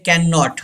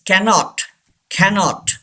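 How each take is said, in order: First: CANNOT as kan-NOT, both Ns held; wrong double N. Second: CANNOT as KA-not, one N; single N. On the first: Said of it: "Don't say". (cannot को गलत "कैन-नॉट" बोलें) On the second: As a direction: glide through "cannot" with one short N. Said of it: "एक एन यहाँ पे pronounce नहीं". (cannot में एक N silent, "कैनॉट") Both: Shown as a demonstration.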